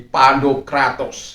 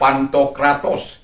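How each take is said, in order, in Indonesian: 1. Konsonan tengahnya diucapkan sebagai 'd'. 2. Konsonan tengahnya diucapkan sebagai 'nt'.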